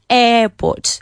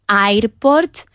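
First: The first vowel is long. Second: The first vowel is short. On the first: The speaker calls it right. "Es una E larga" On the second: The speaker calls it wrong. "Nada de airport"

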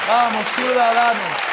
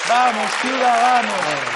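The two takes are said the same way.

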